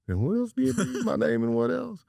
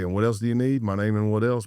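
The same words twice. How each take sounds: First: The voice is high-pitched with a tight throat. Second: The voice is relaxed at a normal pitch. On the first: This is how the speaker actually sounded under stress. "it sounds like" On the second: This is how the speaker meant to sound. "I'd be like"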